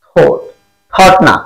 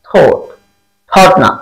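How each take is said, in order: The two takes are said the same way.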